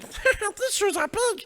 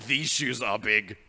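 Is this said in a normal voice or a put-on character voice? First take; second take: character voice; normal. First: It is said in a high, squeaky character voice. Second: It is said in a normal speaking voice. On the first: "in like Elmo's voice" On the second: "what if the cat said said like"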